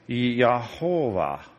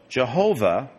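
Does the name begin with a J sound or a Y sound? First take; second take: Y sound; J sound. First: The name begins with a Y sound. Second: The name begins with a J sound. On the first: It is the name as sounded out from the Hebrew letters. "I'll sound it out, and it's Yehovah" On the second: It is the form that came into English through German. "we lost the Y sounds in Hebrew when they went through German and into English"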